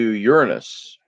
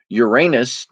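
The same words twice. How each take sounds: First: The word starts sounding like 'urine'. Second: The word ends sounding like 'anus'. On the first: "you're saying urine" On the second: "instead of saying anus"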